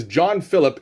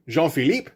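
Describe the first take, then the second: First: Said in the usual way. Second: "Jean-Philippe" in French, stress on the last syllable; French pronunciation. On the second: Shown as a demonstration. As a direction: say Jean-Philippe as "zhon fee-LEEP". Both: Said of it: "half convinced that he should be French".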